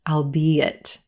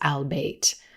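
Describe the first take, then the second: First: The word is said with three syllables. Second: The word is said with two syllables. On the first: The speaker calls it right. "has three syllables and is pronounced albeit" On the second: The speaker calls it wrong. "Sometimes native speakers will pronounce this word as albeit"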